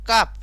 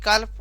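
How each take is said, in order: First: The L is silent in the word. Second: The L is pronounced in the word. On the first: The speaker calls it right. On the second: The speaker calls it wrong.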